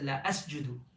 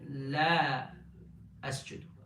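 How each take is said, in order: First: The vowel in la is kept short. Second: The vowel in la is held long. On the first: It means I will definitely prostrate. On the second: It means I will not prostrate.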